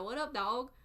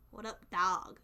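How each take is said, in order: First: "dog" with an aw vowel; southern greeting, "dog" as dawg; southern pronunciation. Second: "dog" stretched with an ah vowel; northern-style greeting, "dog" as dahg; northern pronunciation. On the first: Showing listeners own accent, "dog" as dawg. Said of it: "you guys hear the accent". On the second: Imitating a northerner's greeting, "dog" as dahg. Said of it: "They say dog". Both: Shown as a demonstration.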